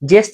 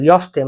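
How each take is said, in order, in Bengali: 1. শব্দটি 'j' ধ্বনি দিয়ে শুরু হয়। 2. শব্দটি 'y' ধ্বনি দিয়ে শুরু হয়। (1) "জেস্তে না" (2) "কিন্তু ইয়স্তে মানে হ্যাঁ"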